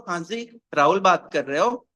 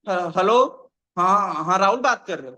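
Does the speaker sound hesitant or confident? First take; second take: confident; hesitant. First: It is said smoothly and confidently. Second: It is said hesitantly, with stumbling starts.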